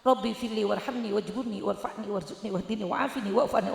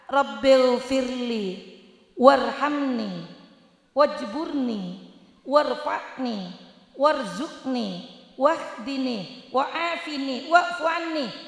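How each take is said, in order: First: The prayer is recited quickly, in a rush. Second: The prayer is recited at an unhurried pace. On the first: "ke susu ke susu" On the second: "lengkap lengkap doanya"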